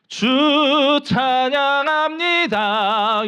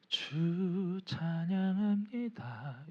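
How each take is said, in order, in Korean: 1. 크게, 목소리를 높여서 말합니다. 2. 작게, 혼잣말하듯이 말합니다. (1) "이렇게 목소리를 높여서" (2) "그냥 나 혼자"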